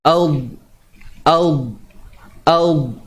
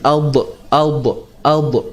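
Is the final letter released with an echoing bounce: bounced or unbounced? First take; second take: unbounced; bounced. First: The final letter is held without an echoing bounce. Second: The final letter ends with an echoing bounce. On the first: The speaker calls it right. "Huruf dha ni jangan dilantunkan" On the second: The speaker calls it wrong. "kadang-kadang orang tersilap baca dengan apa nama? Dengan lantunan"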